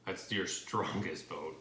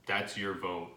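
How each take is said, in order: First: "That's your strongest vote" slowed right down, every word weighted, "strongest" leaned on; slow emphatic stress. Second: Said in the usual way. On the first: Real, not acted. Repeats key line for emphasis.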